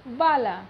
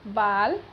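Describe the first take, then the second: First: "बाला" with a held final aa; long ending demo. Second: "बाल" closed short; short ending demo. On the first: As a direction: stretch the end of "बाला". ("बाला" में अंतिम आ लंबा) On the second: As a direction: end "बाल" crisply. ("बाल" छोटा अंत) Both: Shown as a demonstration. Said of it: "अ एवं आ का उच्चारण".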